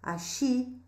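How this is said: The double L sounds like a 'sh' sound. "na variedade rio-platense nós vamos ler axi"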